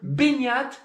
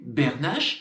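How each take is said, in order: First: The name ends without a 'sh' sound. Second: The name ends with a 'sh' sound. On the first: The speaker calls it right. "C'est Beignat, son prénom" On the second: The speaker calls it wrong. "Mais c'est pas Bernache"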